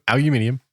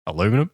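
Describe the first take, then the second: First: Aluminium said the British way, al-yoo-MIN-ee-um; aluminium with five syllables, stress on MIN; Australian pronunciation. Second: Aluminum said the American way, a-LOO-mi-num; Aluminum with four syllables, stress on LOO; American pronunciation. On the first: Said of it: "we are Australian". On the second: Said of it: "making him feel at home". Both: Shown as a demonstration.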